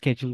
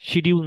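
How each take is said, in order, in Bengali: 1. শুরুতে 'ske' ধ্বনি। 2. শুরুতে 'shi' ধ্বনি। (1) "বা স্কেডিউল বলার চেষ্টা করেন" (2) "এটাকে শিডিউল না বলে"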